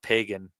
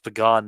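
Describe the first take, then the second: First: It is said like the everyday word pagan. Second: It is said unlike the everyday word pagan. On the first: The speaker calls it wrong. "not Pagan" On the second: The speaker calls it right. "it's pronounced Pagan"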